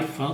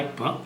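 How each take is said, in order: First: The middle consonant is an F sound. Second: The middle consonant is a P sound. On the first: The speaker calls it wrong. "A pronúncia errada" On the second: The speaker calls it right. "é o correto na língua portuguesa"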